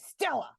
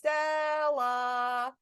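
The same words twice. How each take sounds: First: The name is said quickly and sharply. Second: The syllables are drawn out and elongated. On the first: The person is in trouble. "if Stella is in trouble" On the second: The person is being called to dinner. "calling Stella to dinner and she's not in trouble"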